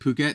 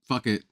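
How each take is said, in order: First: The word sounds like 'poo-ket'. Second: The word sounds like 'fuck it'. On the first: The speaker calls it right. "I know that it's pronounced like I said Phuket now" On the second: The speaker calls it wrong. "I just thought it was like fuck it"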